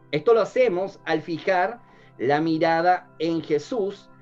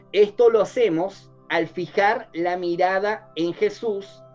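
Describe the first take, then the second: Both takes have the same delivery.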